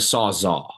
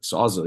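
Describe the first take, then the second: First: The last syllable has an 'all' vowel. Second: The last syllable has an 'ill' vowel. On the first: The speaker calls it right. "It's a sawzaw" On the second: The speaker calls it wrong. "you called it a sawzill"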